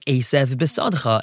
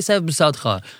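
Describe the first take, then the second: First: Each word is said clearly and separately. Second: The words are run together and blurred. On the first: The speaker calls it right. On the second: The speaker calls it wrong.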